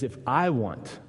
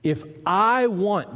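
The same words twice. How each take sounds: First: Said in the usual way. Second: "If I want" slow, higher and louder, leaning on want; stress on want. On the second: Shown as a demonstration. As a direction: draw out "If I want" to make them notice. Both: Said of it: "did you notice that?".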